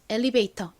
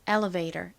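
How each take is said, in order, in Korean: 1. L 뒤의 모음은 i 소리처럼 납니다. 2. L 뒤의 모음은 uh 소리처럼 납니다. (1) "이렇게 이 소리로 발음하는데" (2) "미국식 원어 발음으로는 ... 이렇게 어에 가까운 소리가 납니다"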